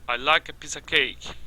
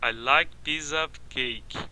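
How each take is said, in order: First: The small words are reduced to schwa. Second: Each word is pronounced fully and separately. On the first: The speaker calls it right. "Reduzindo a schwa" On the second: The speaker calls it wrong. "Eles não falam assim, soletrando palavra por palavra na frase"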